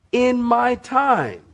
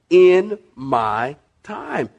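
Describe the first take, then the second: First: High, slow "in my time"; God's measured answer. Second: "in ... my ... time" very slowly, word by word; emphatic repeat. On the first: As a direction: lift "in my time" high, then let it fall. God's answer, first take. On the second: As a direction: stretch and separate each word of "in my time". God's answer repeated for emphasis. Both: Retold or imitated.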